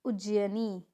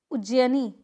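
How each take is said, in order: First: उज्जैनी with an i sound, "ujjayinee"; correct pronunciation. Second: उज्जैनी without the short i, "ujjayanee"; incorrect pronunciation. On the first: Teacher answering, उज्जैनी with the i sounded. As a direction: say उज्जैनी as uj-ji-ya-nee. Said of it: "क्या होता है?". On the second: Teacher showing a mistake, उज्जैनी missing its i. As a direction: say उज्जैनी as uj-ja-nee. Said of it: "नहीं". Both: Shown as a demonstration.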